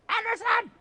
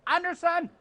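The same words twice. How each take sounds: First: Even higher second call. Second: High hailing call. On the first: Calling Anderson a second time, higher and more insistent. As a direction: call again, pushing it up further. Calls again, louder and higher. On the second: Spotting Anderson from the booth, high playful call. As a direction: call across the hall to get his attention. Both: Real, not acted.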